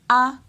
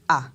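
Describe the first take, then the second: First: The vowel is said on a high pitch. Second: The vowel is said on a low pitch. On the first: "l'intonation monte" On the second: "on va descendre avec l'intonation"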